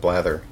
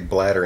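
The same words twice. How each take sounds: First: The middle consonant is a th sound. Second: The middle consonant is a d sound. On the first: This is the name's proper pronunciation. "instead of blather" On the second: This is the form the speech recognizer understands. "I've just by default now say bladder"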